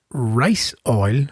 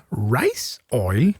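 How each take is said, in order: First: Said in the usual way. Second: Puzzled echo with a jump up in pitch; surprised question. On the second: Real, not acted. Player didn't know that was a thing, surprised question. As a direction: query "Rice oil" as if it's news to you. Queries an oil new to him.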